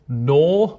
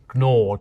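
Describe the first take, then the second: First: The word starts with a plain N sound. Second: The word starts with a G sound. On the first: This is how the word is said today. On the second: This is how the word was once said.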